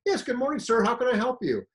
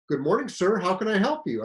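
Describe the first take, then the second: First: Higher, sing-song mock-polite greeting; sarcastic politeness. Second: Mock-polite greeting, a touch raised and louder; sarcastic politeness. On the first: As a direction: lay the fake courtesy on thick. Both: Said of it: "totally a sarcastic response".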